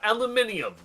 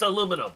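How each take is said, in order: First: The word is said the European way. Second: The word is said the American way. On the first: The speaker calls it wrong. "not aluminium" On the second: The speaker calls it right. "It's aluminum, ... Get it right"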